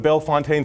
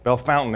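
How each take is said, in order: First: The name is pronounced in a non-local way. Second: The name is pronounced the local way.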